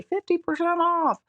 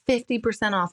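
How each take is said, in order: First: High-pitched discount pitchman; hammed-up sales hype, pitched way up; Crazy Eddie. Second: Said in the usual way. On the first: Shown as a demonstration. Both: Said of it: "I sound like Crazy Eddie when I say".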